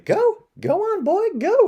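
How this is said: It is said in a high falsetto voice.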